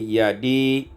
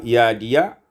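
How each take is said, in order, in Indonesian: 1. Ya di akhir tidak memiliki harakat. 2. Ya di akhir diikuti oleh vokal. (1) "mensukunkan ya pada dua kata yadi" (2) "yang sebelumnya dalam riwayat Hafaz adalah yadia"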